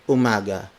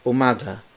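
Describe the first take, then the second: No difference in how they are said.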